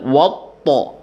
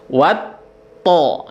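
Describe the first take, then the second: First: The opening 'wa' sounds heavy and dark. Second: The opening 'wa' sounds light and bright. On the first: The speaker calls it wrong. "Jadi jangan dibaca wawnya dibaca jadi tebal. Jangan jangan watto" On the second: The speaker calls it right. "Wawnya tetap kita tersenyum karena dia adalah huruf yang tipis"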